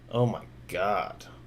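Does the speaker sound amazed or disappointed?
disappointed. It sounds disappointed and exasperated. The drone flew badly. "but I've said it like this"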